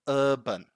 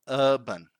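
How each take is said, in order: No difference in how they are said.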